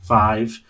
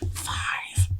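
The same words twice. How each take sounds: First: The word is said in a normal voice. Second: The word is whispered. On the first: "and then say them normal" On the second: "we have to whisper the numbers first"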